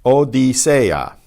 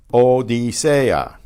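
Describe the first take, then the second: First: Slow O-di-se-a, each vowel its own beat; four separate syllables. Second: Slow O-di-se-a, E and A kept apart; four separate syllables. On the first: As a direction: split Odisea into four clear syllables. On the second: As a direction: pull Odisea apart into four syllables, slowly. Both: Shown as a demonstration. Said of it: "Four syllables".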